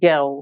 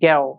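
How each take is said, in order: First: It is said in a British accent. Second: It is said in a British accent.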